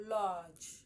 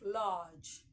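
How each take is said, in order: No difference in how they are said.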